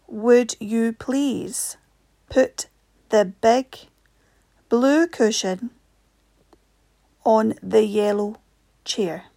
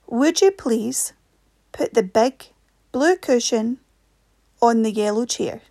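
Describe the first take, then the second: First: It is read much more slowly. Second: It is read at a normal speed.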